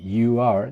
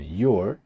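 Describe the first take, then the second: First: "you are" as two separate words; uncontracted "you are"; full form. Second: "your" as one syllable, you're; one-word contraction "your"; contracted form. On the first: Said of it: "En vez de decir". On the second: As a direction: squeeze "you are" into "your". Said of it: "decían". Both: Shown as a demonstration.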